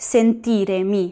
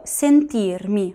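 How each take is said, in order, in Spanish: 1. Se oye una vocal e extra antes de mi. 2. No se oye ninguna vocal antes de mi. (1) "Yo no digo sentiremi" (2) "sino que digo sentirmi"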